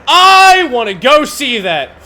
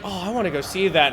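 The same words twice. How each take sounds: First: Louder and slower, instantly keen; drawn-out eager yes; eager sudden agreement. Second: Said in the usual way. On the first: Retold or imitated. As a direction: flip to gushing enthusiasm to please her. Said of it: "And I went". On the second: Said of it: "My girlfriend was like".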